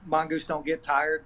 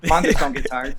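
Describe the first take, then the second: First: Said in the usual way. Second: Half-shouted tough family rallying cry; tough, punchy motivational shout; get-tough house motto. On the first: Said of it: "the tagline". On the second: Acted. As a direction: call it out to toughen someone up. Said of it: "anytime you have to get tough".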